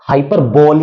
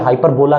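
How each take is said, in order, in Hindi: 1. यह शब्द एक ही 'bole' अक्षर से खत्म होता है। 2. शब्द की आखिरी ध्वनि 'la' है। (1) "नहीं पढ़ेंगे" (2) "नहीं पढ़ेंगे"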